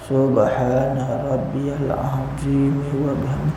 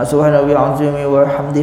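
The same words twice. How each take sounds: First: It is recited slowly. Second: It is recited quickly.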